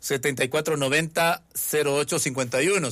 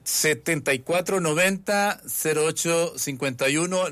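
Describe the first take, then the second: First: It is read at normal speed. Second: It is read more slowly.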